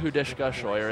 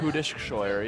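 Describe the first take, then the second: First: The first name ends with an extra 'ka' syllable. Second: The first name ends without any extra syllable. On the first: The speaker calls it wrong. "There's no A there. It's not Hudishka Scheuer" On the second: The speaker calls it right. "It's just like"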